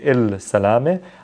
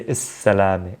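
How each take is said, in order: First: An L sound is pronounced before the S. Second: The L is dropped and the S is doubled. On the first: The speaker calls it wrong. "I don't say Il Salame" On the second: The speaker calls it right. "I say Is Salame"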